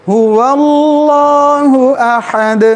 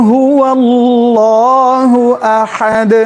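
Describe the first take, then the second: No difference in how they are said.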